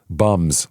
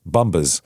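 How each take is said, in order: First: The B is silent, giving one syllable. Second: The B is pronounced, adding an extra syllable. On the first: The speaker calls it right. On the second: The speaker calls it wrong.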